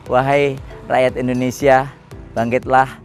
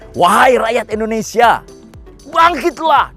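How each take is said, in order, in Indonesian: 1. Dibaca datar dengan sedikit intonasi. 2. Diucapkan dengan intonasi kuat dan dramatis. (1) "kalau kata-kata itu dibaca hanya" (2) "dia memakai intonasi yang luar biasa"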